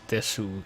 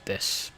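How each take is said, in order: First: The final u vowel is fully pronounced. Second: The final u vowel is dropped. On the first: The speaker calls it wrong. "it's not desu" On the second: The speaker calls it right. "it's des"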